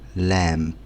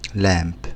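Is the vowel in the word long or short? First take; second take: long; long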